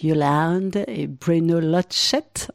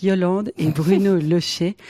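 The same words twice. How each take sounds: First: Lochette said slowly with a clear final t, Lo-chette; corrected pronunciation. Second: Said in the usual way. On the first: Shown as a demonstration. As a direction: spell out Lochette carefully as lo-SHETT. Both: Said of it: "prononcé donc".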